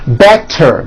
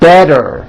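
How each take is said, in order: First: The middle consonant is a clear T sound. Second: The middle consonant is a voiced D sound.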